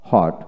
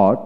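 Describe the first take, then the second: First: হট with an audible h first; হট starting on a breathed h; American h pronunciation. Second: অট with no h at the start; অট opening straight on the rounded sound; British w pronunciation. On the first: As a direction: sound the h in হট. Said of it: "আমেরিকানে হ". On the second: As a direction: drop the h in অট. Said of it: "British উচ্চারণে". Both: Shown as a demonstration.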